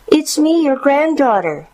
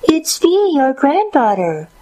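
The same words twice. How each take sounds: First: Put-on very high young girl's voice; a granddaughter announcing herself, pitched high; high, childlike answer at the door; little girl. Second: High put-on little-girl voice; a crafty impostor mimicking a girl, very high; fake young girl. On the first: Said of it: "she responded". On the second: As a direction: pretend to be a granddaughter in a high pitch. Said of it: "doing his very best to sound like a young girl". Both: A narrator's reading.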